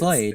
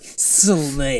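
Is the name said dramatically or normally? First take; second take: normally; dramatically. First: It is said in a plain, ordinary way. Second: It is said in an exaggerated, dramatic way.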